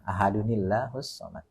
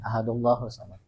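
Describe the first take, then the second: First: An added 'ni' sound links ahad to Allahu. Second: Ahad runs straight into Allahu without an n. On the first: The speaker calls it right. "ada nil, nil" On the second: The speaker calls it wrong. "nyambungnya salah gini"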